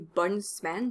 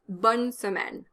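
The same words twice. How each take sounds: First: The E in semaine is dropped. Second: The E in semaine is pronounced. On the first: The speaker calls it wrong. "You can't say bonne semaine because that gives you three consonants in a row" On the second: The speaker calls it right. "You can't drop the E in semaine"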